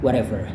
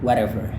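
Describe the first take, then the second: The two takes are said the same way.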